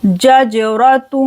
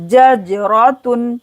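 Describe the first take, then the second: First: Jajaratun slow and clear; repeated. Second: Jajaratun articulated slowly; clear ja then jim. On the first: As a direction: say jajaratun deliberately. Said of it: "फिर जीम की आवाज़ आएगी". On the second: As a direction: separate ja and ja in jajaratun. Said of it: "पहले जा की आवाज़ आएगी". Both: Shown as a demonstration.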